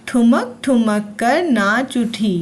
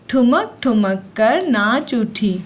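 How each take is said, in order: Both takes have the same delivery.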